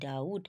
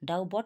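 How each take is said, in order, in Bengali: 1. 'b' ধ্বনিটি 't'-এর আগে নীরব থাকে। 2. 'b' ধ্বনিটি 't'-এর আগে উচ্চারিত হয়। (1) "এখানে কিন্তু বিয়ের কোনো উচ্চারণ নয়" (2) "ডাউ বট বলছি না"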